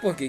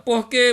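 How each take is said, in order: First: The word is said quickly, as one unit. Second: The word is said slowly, as two parts. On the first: It gives a reason. "a gente fala mais rápido" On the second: It asks for a reason. "esse porquê de perguntar ele é mais lento"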